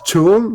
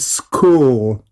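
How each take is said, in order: First: It is said with a ch sound. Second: It is said with a k sound. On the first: The speaker calls it wrong. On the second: The speaker calls it right. "sino mira, school ... este es k"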